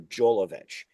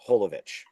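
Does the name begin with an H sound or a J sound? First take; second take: J sound; H sound. First: The name begins with a J sound. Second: The name begins with an H sound. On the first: This is how it is said in America. "Americans say it the J, so they say Mila Jovovich" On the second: This is how it is said outside America. "But outside of America, it's Holovich"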